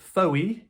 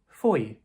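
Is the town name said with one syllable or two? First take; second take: two; one. First: The name is said with two syllables. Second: The name is said as one syllable. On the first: The speaker calls it wrong. "it looks like Foey" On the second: The speaker calls it right. "the pronunciation is Foy"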